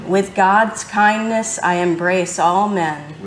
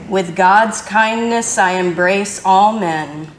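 Both takes have the same delivery.

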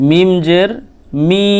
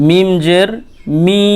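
No difference in how they are said.

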